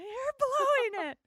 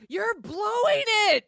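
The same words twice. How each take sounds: First: Retold yell. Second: Loud, slow shout of frustration; shouted scolding at a movie character; yelling at the TV. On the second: Retold or imitated. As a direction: yell it at the screen like she's blowing it. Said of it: "I actually said out loud".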